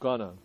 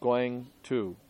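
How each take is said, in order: First: It is blended into one reduced word. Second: It is said as two separate full words. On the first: "they say gonna" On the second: "it's two words"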